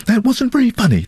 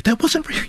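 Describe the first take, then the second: First: High, mocking lady's voice with a falling "very"; prissy complaining lady. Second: High, mocking lady's voice that rises on "wasn't"; prissy lady, cut off. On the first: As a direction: mimic a sniffy passenger, stressing "very". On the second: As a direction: mimic the sniffy passenger, leaning on "wasn't". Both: Ladies complain about the driver.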